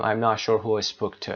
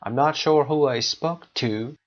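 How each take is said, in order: First: Final "to" swallowed to a short tuh; weak final "to". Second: Slow, careful sentence with "to" as a long too; strong final "to". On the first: Teacher showing what we don't say, reduced "to". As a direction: drop "to" to a schwa at the end. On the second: Teacher modelling the correct form, full "to". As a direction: end on a full oo in "to". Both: Shown as a demonstration. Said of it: "نمیگیم".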